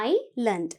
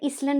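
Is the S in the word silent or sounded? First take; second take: silent; sounded. First: No s sound is pronounced in the middle. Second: An s sound is pronounced in the middle. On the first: The speaker calls it right. "You have to pronounce it as island" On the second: The speaker calls it wrong. "நாங்க Island என்று சொல்றது இல்ல"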